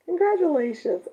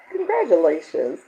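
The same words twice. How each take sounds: First: Congratulations lifted high and bright; higher congratulations. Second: Said in the usual way. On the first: Real, not acted. Host cheering viewer Mary on her diamonds with a higher Congratulations.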